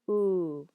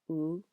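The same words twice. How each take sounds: First: The vowel is long. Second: The vowel is short.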